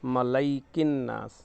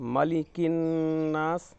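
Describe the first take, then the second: First: The second syllable is pronounced 'lai'. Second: The second syllable is pronounced 'li'. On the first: The speaker calls it wrong. "मीम ज़बर मा लाम या ज़बर लै" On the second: The speaker calls it right. "मीम ज़बर मा लाम ज़ेर ली मली"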